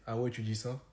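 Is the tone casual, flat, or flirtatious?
flat. It is said flatly, without any intonation. "quand je le dis sans intonation"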